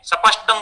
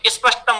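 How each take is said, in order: First: A vowel is inserted between 's' and 'p'. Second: The 'sp' cluster is said directly without vowels. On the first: It reflects a third region's speech habit. "Punjab आदि में सपष्टम बोलते हैं" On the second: It reflects another region's speech habit. "Rajasthan में स्पष्टम बोलते हैं"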